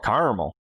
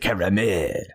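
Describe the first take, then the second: First: It is pronounced in a folksy, casual way. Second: It is pronounced in a fancy, refined way. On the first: The speaker is among casual rural friends. "if I'm hanging around all my redneck friends" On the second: The speaker is trying to sound refined. "If I'm trying to be fancy"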